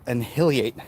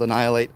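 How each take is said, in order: First: "annihilate" misread as "an-HILLY-ate"; friend's misreading. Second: Said in the usual way. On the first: Retold or imitated. Quoting a friend who only reads, "annihilate" mispronounced "an-hilly-ate". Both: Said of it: "that's how it read to him".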